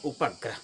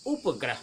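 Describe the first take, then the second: First: उपग्रह said as उ-प-ग्रह, with a short vowel after प; उपग्रह in three clear syllables; correct pronunciation. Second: उपग्रह said as उप्ग्रह, with no vowel after प; उपग्रह clipped to two syllables, उप्-ग्रह; wrong pronunciation. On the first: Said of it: "सही उच्चारण है". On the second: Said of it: "कुछ लोग कहते हैं". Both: Shown as a demonstration.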